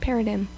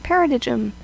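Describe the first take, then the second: First: The word is said with a silent g. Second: The word is said with a hard g sound. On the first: The speaker calls it right. "the simplest solution was perhaps the correct one" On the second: The speaker calls it wrong. "I completely mispronounced the word paradigm"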